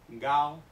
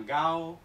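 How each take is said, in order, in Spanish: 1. La primera consonante es un sonido g sonoro. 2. La primera consonante es un sonido g sonoro.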